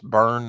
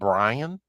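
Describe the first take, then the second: First: The name is said as one syllable, like burn. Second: The name is said as two syllables, like Brian. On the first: The speaker calls it right. "Pronounced burn" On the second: The speaker calls it wrong. "not not Brian"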